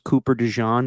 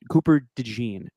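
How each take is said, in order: First: The surname sounds like the mustard Dijon. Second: The surname does not sound like Dijon. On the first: The name is a pun on a mustard. The speaker calls it wrong. "It would have been awesome if his name was Cooper DeJean because he sticks to you like mustard" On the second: This is the name's actual pronunciation. The speaker calls it right. "but not the case"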